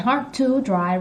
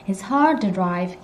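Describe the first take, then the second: First: The word 'to' is said in full. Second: The word 'to' is reduced and weak. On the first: The speaker calls it wrong. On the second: The speaker calls it right.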